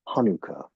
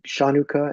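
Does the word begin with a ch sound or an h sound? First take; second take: h sound; ch sound. First: The word begins with an h sound. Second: The word begins with a ch sound. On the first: "one of the tribes used an H" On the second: "there was other tribes that used a C H, and they pronounce it Chanukah"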